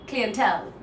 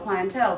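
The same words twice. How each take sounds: First: It is said with a British pronunciation. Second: It is said with an American pronunciation. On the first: "a U K process, then you might want to practice clientele" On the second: "If you're working for a U S based process"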